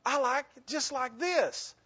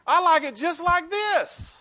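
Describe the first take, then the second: First: Lighter stubborn echo. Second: Loud high mock-stubborn line with a laugh; insist, laughing, on keeping things as they are; stubborn insistence. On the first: Retold or imitated. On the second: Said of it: "how many of you went".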